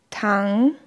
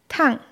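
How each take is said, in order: First: The pitch dips low, then rises again. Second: The pitch drops sharply from high. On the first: It means to lie down. "sinkt die Tonhöhe aus dem mittleren Niveau nach unten und steigt in der Regel wieder" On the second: It means hot. "Beim vierten Ton fällt die Stimme abrupt von einem hohen Niveau ab"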